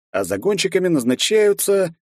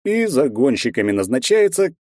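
First: Назначаются stressed with a falling tune. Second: И stressed at the start, then a falling tune. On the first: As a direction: hit назначаются and let it fall. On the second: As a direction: lean on и, the rest falls. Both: Acted. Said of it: "назначаются загонщиками".

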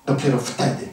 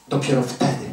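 No difference in how they are said.

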